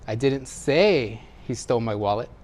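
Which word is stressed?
say. The word 'say' carries the main stress. It was communicated some other way than speaking. "Maybe I wrote it or gestured it"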